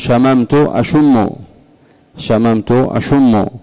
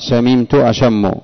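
First: Past verb has a, present verb has u. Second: Past verb has i, present verb has a. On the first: This is the form common among people today. "يفتحون في الماضي شممت ويضمون في المضارع أشم" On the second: This is the classical eloquent form. "فعل في الماضي يفعل في المضارع"

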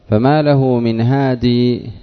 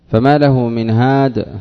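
First: The last word ends with a long ee vowel. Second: The last word ends without a final ee vowel. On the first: This is a permissible pausal form. "يجوز هادي بإثبات الياء ... هذا جائز" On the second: This is the preferred pausal form. "بحذف التنوين والياء في الأرجح ... هذا الأرجح"

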